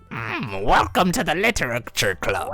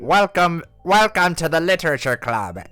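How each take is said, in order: First: It is said in a goth girlfriend voice. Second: It is said in a Papyrus-like, Waluigi-ish voice.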